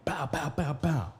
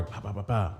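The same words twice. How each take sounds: First: Higher-pitched mimicked door bangs; four punchy but soft spoken bangs; imitated banging. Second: Soft-voiced mimicked knocks; four even spoken knocks, understated; imitated harder knocking. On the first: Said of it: "and I'm banging". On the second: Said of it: "a little harder".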